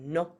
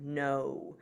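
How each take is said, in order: First: The vowel is short, sharp and stays pure. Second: The vowel glides and gets smaller at the end.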